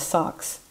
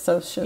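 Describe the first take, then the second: First: The word is said with a k sound, like 'socks'. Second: The word is said with a sh sound, like 'soshes'. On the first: The speaker calls it wrong. "I thought it was socks, S-O-C-S" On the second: The speaker calls it right. "but it's socials"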